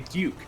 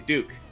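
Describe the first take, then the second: First: The U vowel is said plainly. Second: The U vowel is emphasized and drawn out. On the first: This is how most other states say it. "A lot of other states will say Duke" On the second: This is how it is said in Oregon. "but we will say Duke"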